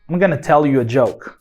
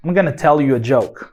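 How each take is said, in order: First: Going to is reduced to a short gonna. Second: Going to is reduced to a short gonna.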